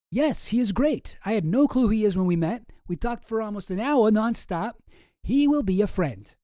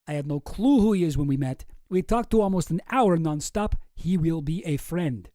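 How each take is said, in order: First: Put-on higher, louder character read without the Russian accent; Jeffrey Epstein. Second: Deliberate mock-Russian accent; Boris with Russian accent. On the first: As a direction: pitch it up as another correspondent. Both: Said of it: "do it again with the right accent".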